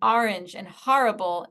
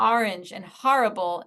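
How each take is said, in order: First: The words are said with a New York pronunciation. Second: The words are said with a New York pronunciation.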